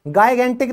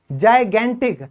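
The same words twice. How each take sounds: First: गाइगेंटिक with a hard g, as in go; wrong hard g. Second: जाइगेंटिक with a soft j, as in jam; correct soft j. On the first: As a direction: begin गाइगेंटिक with g to show the mistake. (गाइगेंटिक को ग से, ग़लत उच्चारण) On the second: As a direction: start जाइगेंटिक with j, not g. (जाइगेंटिक को ज से बोलें) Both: Shown as a demonstration. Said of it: "गाइगेंटिक नहीं होता".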